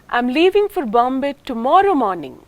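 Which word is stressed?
tomorrow. The main stress falls on the word tomorrow. "That is not today. The nucleus is on the second syllable of tomorrow"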